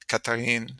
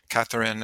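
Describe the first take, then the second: First: The name is pronounced the French way. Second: The name is pronounced the English way. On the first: "the different pronunciations of Catherine in English and French" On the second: "the different pronunciations of Catherine in English and French"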